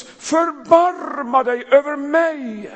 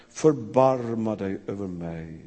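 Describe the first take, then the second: First: Loud, high, slow cry for mercy. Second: Low, slow, hushed prayer; "förbarma" said low and slow, like a private prayer; quiet plea. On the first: Acted. The blind beggar calling to Jesus over the crowd, high and loud. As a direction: call out across the crowd, drawn out. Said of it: "han ropar så det ljuder". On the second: Shown as a demonstration. Preacher repeating the beggar's prayer softly, slow and low. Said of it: "en sån oerhörd bön".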